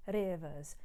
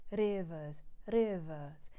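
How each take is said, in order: First: Rivers with the R flipped like a quick D. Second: Rivers with a single tongue tap and no final R; flipped R. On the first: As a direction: tap the tongue once for the R in Rivers. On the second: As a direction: tap the R in rivers once, drop the ending R. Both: Shown as a demonstration. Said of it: "it's what's called a flipped R".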